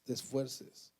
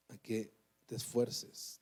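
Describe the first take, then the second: First: Said in the usual way. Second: "a que te esfuerces" drawn out slowly with weight on "que"; slow emphatic plea. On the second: Shown as a demonstration. Preacher urging his brother, slow and weighty. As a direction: stretch every word of "te esfuerces" to press it home.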